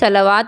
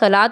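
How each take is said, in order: First: The word is said with a 'w' sound, 'sal-waat'. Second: The word is said with two syllables, 'sa-laat'. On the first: The speaker calls it wrong. "नहीं पढ़ना" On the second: The speaker calls it right. "सलात और ज़कात पढ़ना है"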